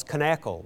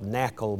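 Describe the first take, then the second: First: "Knackle" with the K pronounced before N; sounded K. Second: "Knackle" with the K left off; silent K. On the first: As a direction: say "Knackle" as kuh-NACK-ul. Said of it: "they pronounce all of their letters". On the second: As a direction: say "Knackle" as NACK-ul, starting on the N. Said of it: "leaving the K off altogether". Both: Retold or imitated.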